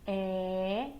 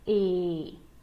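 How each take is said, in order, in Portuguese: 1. A vogal é aberta, com a boca mais baixa. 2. A vogal é fechada, com a boca mais alta. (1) "pode ter o som aberto" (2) "pode também ter o som fechado"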